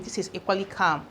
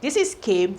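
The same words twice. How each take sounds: First: The spelling pronounced kum, not kaym; pronounced come. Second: Came said with the vowel of day, cam-ay; pronounced came. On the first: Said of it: "when you pronounce this as come". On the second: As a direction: say came as kaym, British style. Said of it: "You pronounce this as came". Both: Shown as a demonstration.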